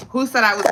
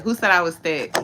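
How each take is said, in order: First: Louder and higher, bursting out; too excited. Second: Toned down a notch. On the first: Overexcited question to viewers about being called thick. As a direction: blurt it out, overexcited. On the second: Calmer retry asking viewers who called her thick. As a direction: still loud but reined in. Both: Real, not acted. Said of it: "oh, I got too excited".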